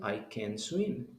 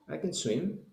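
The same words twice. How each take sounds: First: The phrase is said slowly with a full vowel. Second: The phrase is said quickly with a reduced vowel. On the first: "Si lo dice despacio" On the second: "Lo está diciendo rápido"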